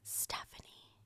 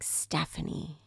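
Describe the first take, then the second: First: The name is whispered very quietly. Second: The name is said somewhat louder.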